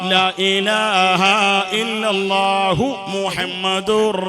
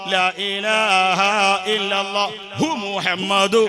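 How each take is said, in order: First: The words flow smoothly with no extra 'hu' sound. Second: An extra breathy 'hu' sound comes before Muhammad. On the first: The speaker calls it right. "ഇതെങ്ങനെ?" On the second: The speaker calls it wrong. "ഇങ്ങനെയില്ല. ... അങ്ങനല്ല ചങ്ങായി"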